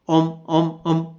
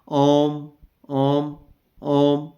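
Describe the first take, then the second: First: The final m sound is cut short. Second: The final m sound is held long. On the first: "म को छोटा कर दूंगा" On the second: "म थोड़ा सा लंबा रखना है"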